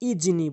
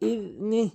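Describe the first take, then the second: First: The middle consonant sounds like j. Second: The middle consonant sounds like a voiced th. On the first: The speaker calls it wrong. "অধিকাংশ লোক ইজনি জিমের উচ্চারণ করে ফেলে" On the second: The speaker calls it right. "এখানে জালের উচ্চারণ করতে হবে"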